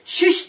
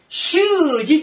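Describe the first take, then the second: First: The middle consonant is a voiceless sh sound. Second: The middle consonant is a voiced j sound. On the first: "普通読む" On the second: "濁らした言い方をするんです"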